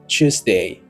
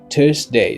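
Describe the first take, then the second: First: It is said in a British accent. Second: It is said in an American accent. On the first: "For British English, we say Tuesday" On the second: "For the American English, we say Tuesday"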